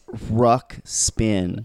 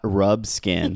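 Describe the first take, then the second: First: The name has a ks sound in the middle. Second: The name has a bsk sound in the middle. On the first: The speaker calls it right. "It's Ruxpin" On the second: The speaker calls it wrong. "It's not Rubskin"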